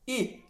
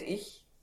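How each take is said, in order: First: The word is said in Bavarian, 'I'. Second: The word is said in Standard German, 'ich'. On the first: The speaker calls it right. "dann sagen wir I" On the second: The speaker calls it wrong. "Nicht ich"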